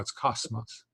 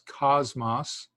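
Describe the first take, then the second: First: The middle consonant is a hissing S sound. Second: The middle consonant is a buzzing Z sound. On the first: The speaker calls it right. "it's just a straight S" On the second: The speaker calls it wrong. "is it pronounced as a Z like you just did?"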